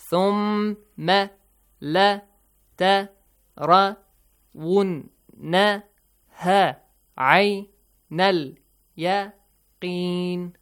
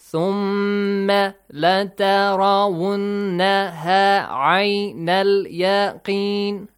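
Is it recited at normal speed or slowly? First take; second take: slowly; normal speed. First: It is recited slowly. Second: It is recited at normal speed.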